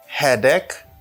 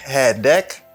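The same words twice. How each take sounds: First: The vowel in ache sounds like A. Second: The same.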